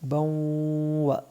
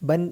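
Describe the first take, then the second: First: The n merges into the following w. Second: The n is pronounced clearly before w. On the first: The speaker calls it right. "അടുത്ത അക്ഷരത്തിലേക്ക് ചേർത്ത് മണിക്കാനാണ്" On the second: The speaker calls it wrong. "ബൻ എന്ന് പറയരുത്"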